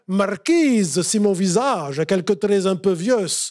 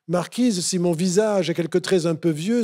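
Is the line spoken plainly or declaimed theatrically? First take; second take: theatrically; plainly. First: It is declaimed in a powerful, theatrical way. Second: It is spoken in a plain, ordinary way.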